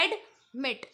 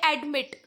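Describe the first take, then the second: First: admit slowly as एड, pause, मिट; drawn-out एड, then separate मिट; split into syllables. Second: Said in the usual way. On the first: Shown as a demonstration. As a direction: break admit in two with a clear gap. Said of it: "इसका पहला syllable क्या है". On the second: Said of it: "टू syllable है admit".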